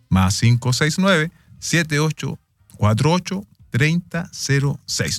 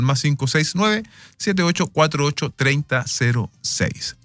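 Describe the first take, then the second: First: The number is said more slowly. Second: The number is said at normal, quicker speed.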